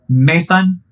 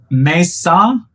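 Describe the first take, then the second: First: The final n sound is pronounced. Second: The final n sound is silent. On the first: The speaker calls it wrong. "I said it wrong" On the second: The speaker calls it right. "said it right. ... The N is silent"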